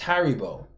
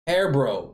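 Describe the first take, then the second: First: The name is said like 'Haribo'. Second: The name is said like 'Hairbro'. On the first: The speaker calls it right. "It's Haribo" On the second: The speaker calls it wrong. "He said Hairbro, didn't he?"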